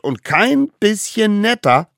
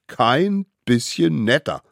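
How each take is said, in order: First: "kein bisschen netter" high and loud, KEIN punched; bossy, forceful "kein bisschen netter"; emphatic order. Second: Mildly gleeful, measured echo of the rule; enthusiastic echo. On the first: Acted. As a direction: insist hard on "kein", pitched up. Ringleader insists on the cruel rule. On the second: A narrator's reading. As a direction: relish "Kein bisschen netter" without shouting. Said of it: "riefen die kleinen Wilden begeistert".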